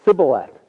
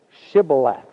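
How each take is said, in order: First: Sibboleth with a plain s, no sh, said loud; the wrong way, s instead of sh in Sibboleth; Sibboleth said louder, s not sh; mispronounced Sibboleth. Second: Shibboleth said with a clear sh at the start; correct Shibboleth. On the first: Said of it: "he could not pronounce it right". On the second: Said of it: "for he could not pronounce it right". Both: Retold or imitated.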